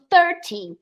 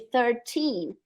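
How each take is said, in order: First: The stress is on the first syllable. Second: The stress is on the last syllable. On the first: "já ouvi falante nativo falando treze" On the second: "em vez de treze"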